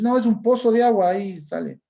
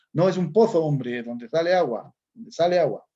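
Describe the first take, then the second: First: "pozo" said with a plain s sound, no th, a bit louder; Ecuadorian seseo. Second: Put-on Castilian Spain accent with the z of "pozo" said as a lisped th, louder; mock a Spaniard from the peninsula, Spanish accent, th in "pozo"; Spaniard's accent. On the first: Retold or imitated. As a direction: say "pozo" the Latin American way, z as s. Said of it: "A mí nosotros". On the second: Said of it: "un español, dijera".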